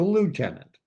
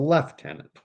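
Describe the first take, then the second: First: It is said with an American pronunciation. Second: It is said with a Canadian pronunciation. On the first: The speaker calls it wrong. "not a lieutenant" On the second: The speaker calls it right. "In the Canadian Armed Forces, the rank junior officer is a lieutenant"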